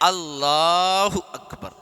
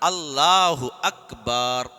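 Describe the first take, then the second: First: The la syllable of Allahu is stretched long. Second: The ba syllable of Akbar is stretched long. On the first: The meaning stays unchanged. The speaker calls it right. "അല്ലാ നിലടുത്ത് കുറച്ച് നീട്ടുക" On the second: The word becomes one meaning drums. The speaker calls it wrong. "അക്ബാർ എന്ന് പറഞ്ഞാൽ ചെണ്ടകൾ എന്നാണ്"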